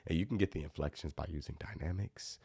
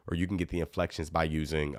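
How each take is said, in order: First: Dropped to a soft, hushed level; soft demo. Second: Said in the usual way. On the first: Shown as a demonstration. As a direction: say it softly to show dynamics. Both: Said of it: "I might whisper a couple things".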